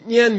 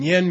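First: The word is said with a high tone. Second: The word is said with a low tone. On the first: It means famous. "If you make it high tone, nyen means famous" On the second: It means to listen. "nyen means to listen"

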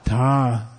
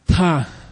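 First: It is low in pitch with a buzzing throat. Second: It is breathy, like a tired sigh. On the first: "it means low tone voiced" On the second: "Like you're tired"

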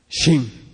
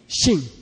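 First: The word is said with a low tone. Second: The word is said with a high tone. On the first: It means field. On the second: It means tree or wood.

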